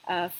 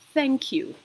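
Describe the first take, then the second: First: The first sound is not a 'th' sound. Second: The first sound is a 'th' sound. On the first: The speaker calls it wrong. "It's not" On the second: The speaker calls it right. "it is thank you"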